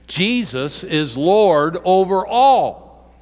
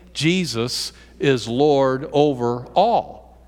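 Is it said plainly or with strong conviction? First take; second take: strong conviction; plainly. First: It is said forcefully, with strong conviction. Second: It is said plainly, without extra force.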